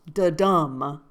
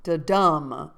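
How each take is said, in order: First: Da-dum, dum landed louder with a lift; stress on dum. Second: Da-dum with the dum hit harder and louder; stress on dum. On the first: Showing viewers the beat, dum punched. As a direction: lean into the dum of Da-dum. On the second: Reading iambic meter aloud, stressing the dum. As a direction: punch the dum in Da-dum. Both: Shown as a demonstration. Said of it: "Emphasis on the dumb".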